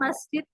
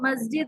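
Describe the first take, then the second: First: It is said with a clear, hissing s sound. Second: It is said with a voiced z-like sound. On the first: The speaker calls it right. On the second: The speaker calls it wrong.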